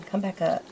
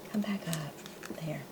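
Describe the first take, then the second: First: Said in the usual way. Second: Whisper. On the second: Real, not acted. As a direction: Come back up, breathed as a soft whisper. Repeats the coaxing to the sticker.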